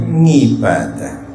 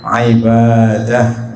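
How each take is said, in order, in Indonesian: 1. Kata "ibadah" diawali dengan bunyi ng yang sengau. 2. Kata "ibadah" diawali dengan bunyi ain yang keluar dari tenggorokan. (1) "diambil gampangnya tapi aman itu ngibadah" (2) "susah untuk orang Jawa mengucapkan huruf ain"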